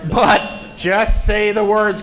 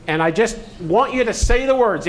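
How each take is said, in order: First: Emphatic teacher repeat; slow insistent just say the words. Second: Said in the usual way. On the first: Real, not acted. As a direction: say the words slowly and louder. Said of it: "insisting instruction". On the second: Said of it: "repeating instruction".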